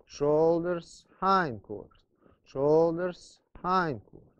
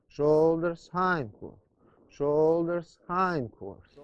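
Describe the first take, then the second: No difference in how they are said.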